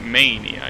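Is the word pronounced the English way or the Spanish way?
English. The word is pronounced the English way. The speaker calls it right. "It's Mania"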